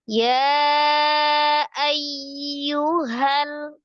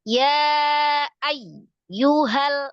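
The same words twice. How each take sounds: First: The syllables are joined in one smooth flow. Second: The syllables are broken apart with heavy stress. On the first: The speaker calls it right. "disambung ya" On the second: The speaker calls it wrong. "menyalahi sifat huruf ya yang roghah. Jadi disedahkan wa ay, ya ay, yu, pisah"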